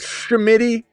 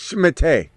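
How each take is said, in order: First: The name is said in a plain English way. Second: The name is said in a French way. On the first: The speaker calls it wrong. "you guys calling and go, what's up, Shimity?" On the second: The speaker calls it right. "to make you say it the French way"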